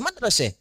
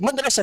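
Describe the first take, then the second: First: The last vowel is an E sound. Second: The last vowel is an open A sound.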